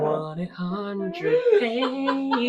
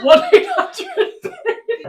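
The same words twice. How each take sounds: First: Drawn out through laughter; laughing. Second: Slow, laughing repeat. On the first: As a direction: stretch it out, giggling. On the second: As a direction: say it through laughter. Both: Real, not acted. Repeating phrase while laughing.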